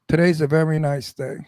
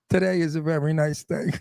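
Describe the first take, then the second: First: It is said with a hard, unsmiling tone. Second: It is said with a smiling, brighter tone. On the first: The speaker sounds like a menacing gangster. "that same thing with my Brooklyn accent" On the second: The speaker sounds like an ordinary friendly local. "I'm going to say it with a smile"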